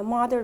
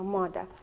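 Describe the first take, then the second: First: The final r sound is pronounced. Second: The final r sound is dropped.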